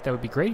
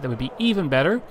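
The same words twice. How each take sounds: First: Said in the usual way. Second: Louder, with a rise on "even"; stress on even. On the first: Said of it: "if you click like". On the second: Shown as a demonstration. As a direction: push the word "even" up and louder. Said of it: "if you click subscribe".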